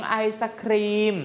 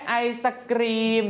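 First: "khreem" ending with an aspirated k. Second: "kreem" ending with an unaspirated k. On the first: Teacher contrasts the second word for class, aspirated kh in "khreem". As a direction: let air follow the k of "khreem". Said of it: "เป็นคอ". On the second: Teacher points out the first word to class, unaspirated k in "kreem". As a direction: keep the k of "kreem" free of breath. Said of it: "เป็นกอไก่". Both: Shown as a demonstration.

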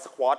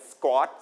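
First: "squat" as sa-khwot, with a puff on the k; aspirated k, wrong way. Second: "squat" as skwot, k close to a g; unaspirated k after S. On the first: Teacher showing how not to read it, aspirated sa-khwot for "squat". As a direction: say "squat" with a vowel after s and an aspirated kh. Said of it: "ก็จะไม่อ่านว่า". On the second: Teacher giving pupils the correct reading, unaspirated k in "squat". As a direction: say "squat" as one syllable, no puff on the k. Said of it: "เป็นเสียงเกิด". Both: Shown as a demonstration.

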